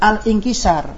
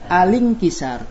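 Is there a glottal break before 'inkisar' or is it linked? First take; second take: break; linked. First: A glottal break separates al from inkisar. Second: The l runs straight into inkisar. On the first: The speaker calls it wrong. "Jangan dibaca al ingkisar. Salah" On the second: The speaker calls it right. "Dibaca alingkisar"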